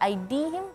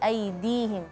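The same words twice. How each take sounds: First: The d sound is hard and heavy. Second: The d sound is soft and gentle. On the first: The speaker calls it wrong. "ke aidihim" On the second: The speaker calls it right. "tapi aidihim, lebih lebih soft, lebih lembut lagi"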